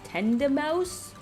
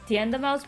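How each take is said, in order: First: The first syllable sounds like 'ten'. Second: The first syllable sounds like 'tee-en'. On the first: The speaker calls it wrong. "are you supposed to pronounce it ten Tenda Mouse?" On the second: The speaker calls it right. "I say it more like Tienda Mouse"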